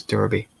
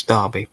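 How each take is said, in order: First: Derby said as Durby, with an er as in fur; Durby pronunciation. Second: Derby said as Darby, with an open ar as in car; Darby pronunciation. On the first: Reader correcting himself on Derby, saying Durby. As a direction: say Derby like DUR-bee. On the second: Reader trying the place name Derby, saying Darby. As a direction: say Derby like DAR-bee. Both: Shown as a demonstration. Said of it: "It's the accent".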